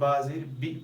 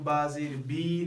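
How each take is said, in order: First: The final vowel is said short and quick. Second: The final vowel is stretched out long. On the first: The speaker calls it right. "जल्दी अदा करें" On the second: The speaker calls it wrong. "नहीं पढ़ेंगे"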